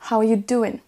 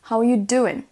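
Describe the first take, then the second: No difference in how they are said.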